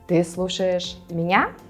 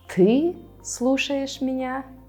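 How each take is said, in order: First: The last word carries the emphasis. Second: The first word carries the emphasis. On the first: It asks whether the person is listening to me or someone else. "you'll emphasize the word me, меня" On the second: It expresses disbelief that this person is the one listening. "This time you will emphasize the pronoun ты"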